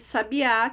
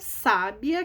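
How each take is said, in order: First: The stress is on the last syllable. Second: The stress is on the first syllable. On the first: It means a small bird. "sabiá leva acento no último a" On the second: It means an intelligent person. "sábia leva acento no sa"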